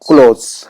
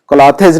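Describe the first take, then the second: First: The word is said as one syllable. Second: The word is said as two syllables. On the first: The speaker calls it right. "क्लोथ्स पढ़ना है" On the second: The speaker calls it wrong. "क्लॉथेज नहीं पढ़ना है इसको"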